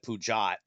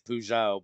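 First: The name is given a mangled, anglicized pronunciation. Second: The name is given its French-like pronunciation. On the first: The speaker calls it wrong. "he called it Peugeot" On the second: The speaker calls it right. "it's Peugeot"

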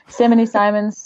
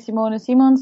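First: The name is pronounced with English sounds. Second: The name is pronounced with Dutch sounds. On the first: "and in English, [name]" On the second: "I would say [name] in Dutch"

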